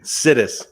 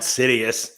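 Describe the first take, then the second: First: The name is said with two syllables. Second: The name is said with three syllables. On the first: The speaker calls it right. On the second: The speaker calls it wrong. "Not Sidious"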